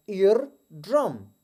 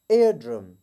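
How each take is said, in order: First: ईयर ड्रम with the r sounded; ईयर ड्रम, mistaken r; wrong pronunciation. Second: ईयर ड्रम with no r sound; ईयर ड्रम, r left silent. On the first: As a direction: demonstrate ईयर ड्रम with a pronounced r. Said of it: "wrong pronunciation इस तरह है". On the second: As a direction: drop the r in ईयर. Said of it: "आर हम फिर pronounce नहीं करेंगे". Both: Shown as a demonstration.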